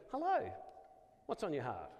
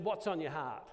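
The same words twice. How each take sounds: First: Mock greeting. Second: Said in the usual way. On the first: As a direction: send up the odd opener with a sing-song hello. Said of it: "You go". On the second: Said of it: "He said".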